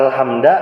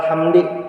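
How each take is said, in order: First: The word ends with an a vowel. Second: The word ends with an i vowel. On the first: "Kada alhamda" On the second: "kada alhamdi"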